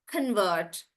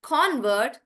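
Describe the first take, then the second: First: "convert" lower, reduced "kun" then VERT; stress on VERT. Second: "Convert" with open O, front-heavy; stress on CON. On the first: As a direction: shrink "con", lean on "vert" in "convert". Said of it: "I'm stressing on vert". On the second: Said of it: "the stress is on con". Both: Shown as a demonstration.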